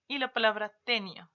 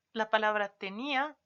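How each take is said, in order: First: "tenio" said TE-nia, weight on the first syllable; stress on first e of tenia. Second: "tenía" with the weight on the í, te-NÍ-a; stress on í of tenía. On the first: Teacher contrasting words for students, "tenio" stressed TE-nia. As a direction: put the voice on "te" in "tenio". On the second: Teacher contrasting words for students, "tenía" stressed te-NÍ-a. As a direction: land the voice on the í in "tenía". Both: Shown as a demonstration. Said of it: "lo pronunciamos de manera distinta".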